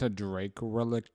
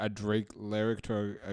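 First: [name] "relic" said for lyric, as RE-lik; wrong word slip. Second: [name] "lyric" said right, as LIR-ik; corrected word. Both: Real, not acted. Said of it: "a relic and a lyric are very different things".

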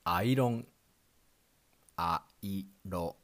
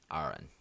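First: Iron as "airon", flat Japanese syllables; katakana pronunciation. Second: Iron as English "eye-ern"; plain English iron; English pronunciation. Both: Shown as a demonstration. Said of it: "In English".

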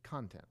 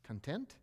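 First: Content said as CON-tent, the first syllable stressed, falling; CON-tent, the noun. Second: Content said as con-TENT, the second syllable stressed, rising; con-TENT, the adjective. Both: Shown as a demonstration. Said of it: "They're spelled the same way".

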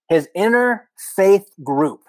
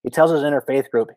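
First: "interfaith group" said slow and high, leaning on "interfaith"; stressed name. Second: Said in the usual way. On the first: Shown as a demonstration. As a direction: spell out "his interfaith group" slowly, pitched up. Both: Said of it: "that's the name of the group".

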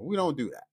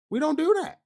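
First: Said in the usual way. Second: A high incredulous second take; indignant high repeat. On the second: Real, not acted. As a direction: jump way up in pitch on "We don't do that". Repeated emphasis.

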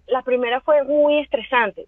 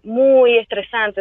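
First: Said in the usual way. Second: Slow, drawn-out "muy estresante" with "muy" hit hard; stress on muy. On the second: Real, not acted. Recalling the stressful first season, stretching "muy estresante".

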